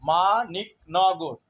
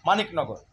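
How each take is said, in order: First: মানিকনগর drawn out slowly and gently. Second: মানিকনগর spoken briskly, a little quicker; said faster. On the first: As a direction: say মানিকনগর slowly to show the syllables. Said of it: "আস্তে বললেও". (মানিকনগর ধীরে ধীরে বলা) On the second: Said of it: "জোরে বললে". (মানিকনগর একটু দ্রুত বলা) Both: Shown as a demonstration.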